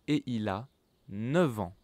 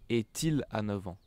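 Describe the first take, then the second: First: No t sound joins et to il. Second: A t sound joins et to il. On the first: The speaker calls it right. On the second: The speaker calls it wrong.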